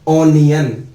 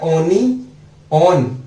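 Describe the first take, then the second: First: The last part sounds like 'yun'. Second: The last part sounds like 'on'. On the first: It is how English speakers actually say it. "लेकिन इसको English में बोला गया जाता है ओनियन" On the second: It follows the spelling letter by letter. "वैसे तो इस स्पेलिंग को ओनी ऑन बोलना चाहिए।"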